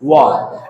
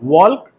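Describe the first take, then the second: First: The L sound is silent in the word. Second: The L sound is pronounced in the word. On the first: The speaker calls it right. "एल को क्या करना है, silent" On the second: The speaker calls it wrong. "It's not"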